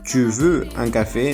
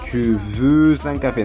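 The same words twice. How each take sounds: First: No z sound links veux to un. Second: A z sound links veux to un. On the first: The speaker calls it right. "La X no suena" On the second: The speaker calls it wrong. "está incorrecto"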